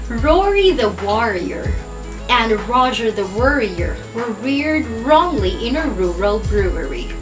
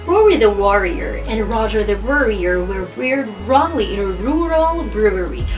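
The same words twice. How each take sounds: First: The sentence is said at a slower pace. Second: The sentence is said at a faster pace. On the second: "Let's try it a little faster"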